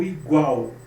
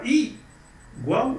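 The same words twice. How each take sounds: First: "igual" with light i and strong GUAL; stress on GUAL. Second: First syllable of "igual" pushed up, "Í... gual"; stress on I. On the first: Teacher giving the natural option, "igual" stressed on GUAL. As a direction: say "igual" as i-GUAL, weight on the end. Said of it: "O gual é a sílaba mais". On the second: Teacher asking which one you say, "igual" stressed on I. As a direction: say "igual" with the weight on the opening I. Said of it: "Você fala igual ou igual?". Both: Shown as a demonstration.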